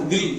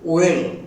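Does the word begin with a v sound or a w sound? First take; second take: v sound; w sound. First: The word begins with a v sound. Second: The word begins with a rounded w sound. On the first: The speaker calls it wrong. "Not வில், நம்ம வி சொல்றோம்ல" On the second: The speaker calls it right. "இதனுடைய உச்சரிப்பு வந்து ஓ"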